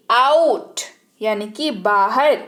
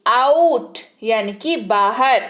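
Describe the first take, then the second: No difference in how they are said.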